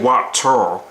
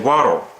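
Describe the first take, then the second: First: The middle consonant is a clear, hard T. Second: The middle consonant is a soft D sound. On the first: The speaker calls it wrong. "You're not supposed to say water" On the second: The speaker calls it right. "pronounced as a, a soft D"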